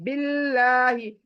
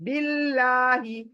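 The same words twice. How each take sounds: No difference in how they are said.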